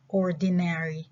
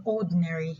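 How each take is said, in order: First: ORDINARY with every vowel, "OR-di-nair-ee"; full pronunciation. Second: ORDINARY squeezed to "ORD-n-ree"; reduced pronunciation. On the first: Teacher showing what the short form replaces, full pronunciation. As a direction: sound out all of "ordinary": "OR-di-nair-ee". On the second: Teacher contrasting it with the full form, reduced pronunciation. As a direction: swallow the middle vowel of "ordinary": "ORD-n-ree". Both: Shown as a demonstration. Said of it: "instead of ordinary".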